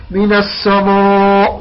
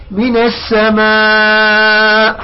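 First: "السماء" with a dark, rounded "mo" sound; slow faulty "السماء", its alef thickened toward "moo"; wrongly heavy alef. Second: "السماء" with a thin, light "ma", long-drawn; light alef after meem. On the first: Teacher shows students the mistake, heavy "somo" in "السماء". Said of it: "لا، لا نقول". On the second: Teacher models correct light alef to students, thin drawn-out "السماء". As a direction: stretch "السماء" slowly, keeping the final alef thin as "maa". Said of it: "لأنه الميم اللي قبل الألف مرقق". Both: Shown as a demonstration.

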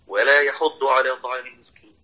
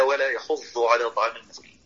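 First: "يحض" with a clear emphatic dad; correct dad. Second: "يحض" with the dad blurred to a z sound; the mistaken "يحوز" sound in "يحض"; wrong reading. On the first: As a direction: say "يحض" ending in a full ض. ("يحض" بضاد واضحة) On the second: ("يحض" بضاد غير صحيحة قريبة من الزاي) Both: Shown as a demonstration. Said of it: "لا تقرأها".

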